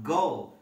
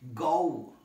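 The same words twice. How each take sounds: First: The vowel is a short, plain o sound. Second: The vowel is a full oh sound. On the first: The speaker calls it wrong. "It's not go" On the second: The speaker calls it right. "it should be go"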